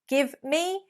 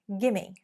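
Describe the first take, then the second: First: It is said as two full, separate words. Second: It is blended into one reduced word.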